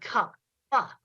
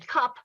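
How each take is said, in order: First: The final p is released with an added vowel. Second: The word ends plainly on the p sound. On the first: "and cup pa" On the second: "switched back and forth between saying cup"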